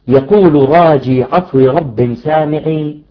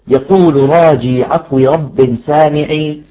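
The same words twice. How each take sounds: Both takes have the same delivery.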